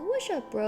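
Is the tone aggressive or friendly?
friendly. It sounds relaxed and friendly. A casual, harmless greeting. "It depends on all the tone. ... like walking like"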